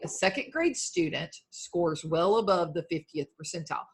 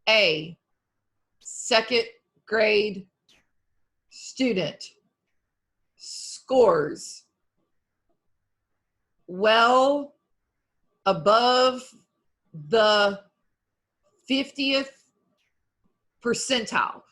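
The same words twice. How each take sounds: First: It is read smoothly, with a natural flow. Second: It is read choppily, one word at a time.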